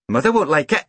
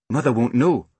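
First: High voice, "like" rising at the end into "it"; warning. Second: "know" stressed and falling, settled; countering. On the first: Small boy cautioning his sister, warning that Mother won't "like" it. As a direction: warn her in a high child's voice about "like". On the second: Sister overruling her brother's worry, "know" stressed firmly. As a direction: answer back, landing firmly on "know". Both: A narrator's reading.

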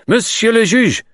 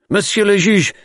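First: High and loud, a touch louder still; rising urgent cry; urgent call repeated. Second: High, breathless alarm; loud, high-pitched urgent call. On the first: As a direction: keep calling the judge in alarm. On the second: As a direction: burst in crying for the judge. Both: Acted. Commissary bursts in with news.

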